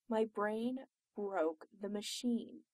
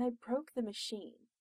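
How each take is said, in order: First: "My brain broke the machine" slowly, word by word; slow emphatic repeat. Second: Said in the usual way. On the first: Acted. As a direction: spell out "My brain broke the machine" at half pace. Emphatic repeat of the same claim.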